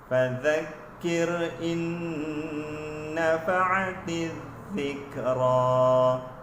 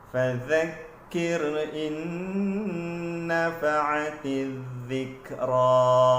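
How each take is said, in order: No difference in how they are said.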